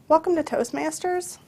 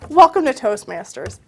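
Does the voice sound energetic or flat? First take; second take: flat; energetic. First: It is said with low, flat energy. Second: It is said with lively, raised energy. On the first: The speaker seems indifferent to the listener. The speaker calls it wrong. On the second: The speaker is glad the listener is here. The speaker calls it right.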